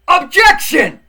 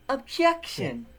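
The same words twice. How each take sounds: First: It is said forcefully and loudly. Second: It is said weakly and quietly.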